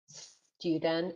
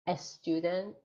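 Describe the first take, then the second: First: It starts directly with the s sound. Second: An extra vowel is added before the s. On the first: The speaker calls it right. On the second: The speaker calls it wrong.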